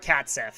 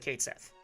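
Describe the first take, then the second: First: The first word has the vowel of 'cat'. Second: The first word has the vowel of 'Kate'. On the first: "Or a Cat Sith" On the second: "I say Kate Sith"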